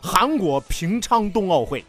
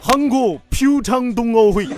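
First: It is said with standard Mandarin pronunciation. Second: It is said with a Korean-style pronunciation. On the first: "你看普通话翻译过来" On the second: "你要是韩国人念这个啊，太脏了。"

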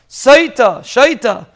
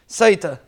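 First: The word begins with an sh sound. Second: The word begins with an s sound. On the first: The sin comes from a spirit of foolishness. "But shaita is the first pshat" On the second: The sin is a straying from the path. "the way we pronounce it"

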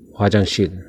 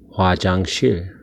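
First: The word is said fast. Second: The word is said slowly.

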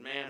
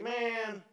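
First: The word is said in a plain, even way. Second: The word is said in a dramatic, exasperated way. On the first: The speaker simply addresses the person. The speaker calls it right. "No, he just said" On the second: The imagined speaker is exasperated with the request. The speaker calls it wrong. "I can almost picture, I know he's not saying it that way. He's like"

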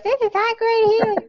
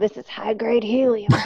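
First: It is said in a very high voice. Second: It is said in a normal, shady-dealer voice.

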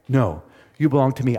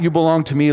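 First: It sounds warm and loving. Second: It sounds harsh and controlling.

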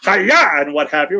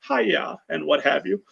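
First: It is said with force and energy. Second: It is said in a relaxed, casual way.

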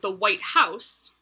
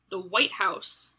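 First: The stress falls on the word 'house'. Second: The stress falls on the word 'white'. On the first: "where the emphasis is on house" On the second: It is the specific building in Washington where the president lives.

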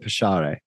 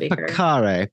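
First: The middle consonant is a 'sh' sound. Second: The middle consonant is not a 'sh' sound. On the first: The speaker calls it right. "if it's a sh sound, it's probably Pacere" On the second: The speaker calls it wrong. "I said Pacere, but that's probably wrong"

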